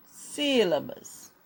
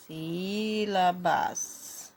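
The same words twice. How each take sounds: First: SÍLABAS said slowly as one word; slow, falling SÍLABAS for writing; measured dictation. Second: SÍ-LA-BAS stretched syllable by syllable; very slow SÍLABAS, every vowel held; drawn-out dictation. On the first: Teacher dictates while writing. (SÍLABAS ditado devagar) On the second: Repeats word slowly while writing. (SÍLABAS bem esticado, sílaba por sílaba) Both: Shown as a demonstration.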